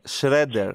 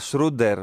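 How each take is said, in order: First: The first vowel sounds closer to 'e'. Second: The first vowel sounds like 'oo'. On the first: The speaker calls it right. "είναι πιο κοντά στο Ε" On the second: The speaker calls it wrong. "Γιατί τον λες Σρούντερ"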